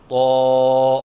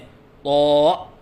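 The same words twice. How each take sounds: First: The sound is clean and steady. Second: The sound has a glottal catch in it. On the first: The speaker calls it right. "सही अदायगी है" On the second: The speaker calls it wrong. "हमज़ा के साथ पढ़ना"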